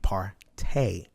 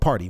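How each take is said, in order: First: The word ends with an 'ay' sound. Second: The word ends with an 'ee' sound. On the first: "we partay" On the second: "We don't party"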